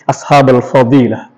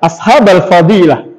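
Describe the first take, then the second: First: "ashabal fadilah" on a low, level tone; low monotone "ashabal fadilah". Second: "ashabal fadilah" with a wavy rise and fall; Indonesian intonation. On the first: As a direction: keep "ashabal fadilah" low, with no rhetorical swing. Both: Shown as a demonstration.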